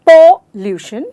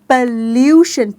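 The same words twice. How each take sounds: First: The stress is not on the second syllable. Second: The stress is on the second syllable. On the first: The speaker calls it wrong. "No doesn't sound right." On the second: The speaker calls it right. "यानी ल्यू पे, pollution पे हम जोर डालें।"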